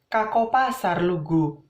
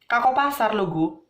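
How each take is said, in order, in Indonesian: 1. Nadanya rendah dan lambat, ditarik-tarik. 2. Nadanya tinggi dan agak cepat. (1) "dengan nada dan indo dan intonasi yang agak rendah dan agak ditarik-tarik" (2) "agak bernada dan agak cepat"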